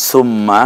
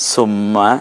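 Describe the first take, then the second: No difference in how they are said.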